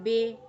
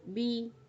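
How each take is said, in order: First: The vowel sounds like 'eh'. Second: The vowel sounds like 'ee'. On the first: The speaker calls it wrong. "बे नहीं पढ़ेंगे" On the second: The speaker calls it right. "फर्क है ना"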